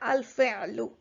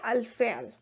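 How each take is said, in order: First: The word ends with a short final u vowel. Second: The word ends on a consonant, no final vowel. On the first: The speaker continues speaking after the word. "But if you continue, you can say al-fi'lu" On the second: The speaker stops after the word. "if you stop, you don't have to pronounce it. So you can just say al-fi'l"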